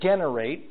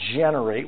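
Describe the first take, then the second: First: The first G is a hard G sound. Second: The first G is a soft J sound. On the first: The speaker calls it wrong. "we don't say generate" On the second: The speaker calls it right. "we say generate, We soften the G"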